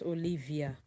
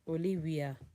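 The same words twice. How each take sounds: First: The middle consonant sounds like a V. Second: The middle consonant sounds like a W. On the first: The speaker calls it wrong. "not Olivia" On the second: The speaker calls it right. "They sound W"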